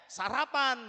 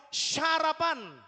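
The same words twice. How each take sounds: First: "sarapan" dengan S biasa; bunyi S, bukan SH. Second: "sarapan" jadi "syarapan", keras dan tinggi; bunyi SH di awal. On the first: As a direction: ucapkan "sarapan" tanpa desis SH. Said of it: "kalau orang Efraim ngomongnya". ("sarapan" berawalan S polos) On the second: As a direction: desiskan SH panjang di awal "sarapan". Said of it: "kalau orang Gilead bisa ngomong". ("sarapan" dengan S berubah jadi SY) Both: Shown as a demonstration.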